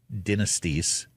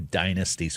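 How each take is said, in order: First: It is said in a British accent. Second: It is said in a North American accent.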